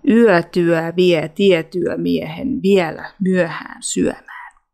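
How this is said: It is spoken in a Tampere dialect accent.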